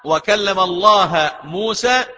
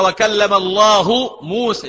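First: The word for God ends in an 'a' vowel. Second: The word for God ends in a 'u' vowel. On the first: Moses is the one who speaks. "لما يتغير النحو" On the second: God is the one who speaks. "لكن القراءة ثابتة"

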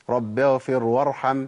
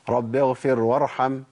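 The two takes are said the same way.

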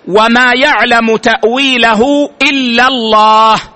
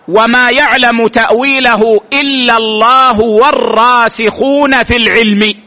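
First: The reading stops right after the word Allah. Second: The reading runs on, stopping after 'in knowledge'. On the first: Only God knows its true outcome. "ثم وقف" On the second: The firmly grounded scholars also know its meaning. "وبعض السلف يقرأها هكذا ... ثم وقف"

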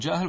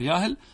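First: The word begins with a j sound. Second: The word begins with a y sound. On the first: This is the standard form. "بعض الناس يقول جاهل" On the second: This is the colloquial dialect form. "نقلب الجيم إلى ياء"

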